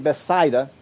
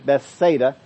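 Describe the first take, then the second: First: The middle vowel sounds like the vowel in 'aisle'. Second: The middle vowel does not sound like 'aisle'. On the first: This follows the original Greek pronunciation. "So it's actually Bethsaida" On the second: This is the commonly used pronunciation. "Most people are used to it being Bethsaida"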